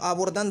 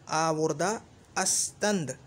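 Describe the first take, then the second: First: The phrase is contracted, with 'ast' dropped. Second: The phrase is said in full, with 'ast'. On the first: "अस्त जो है ये निकाल देते हैं तख़फ़ीफ़ के लिए" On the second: "आवुर्दा अस्तंद होना चाहिए था"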